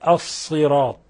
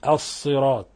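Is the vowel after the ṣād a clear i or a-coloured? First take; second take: clear i; clear i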